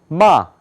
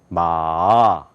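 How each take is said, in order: First: It is said with the fourth tone. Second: It is said with the third tone. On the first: It means to scold. "네 번째 마 이렇게 발음해요" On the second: It means horse. "세 번째는 마"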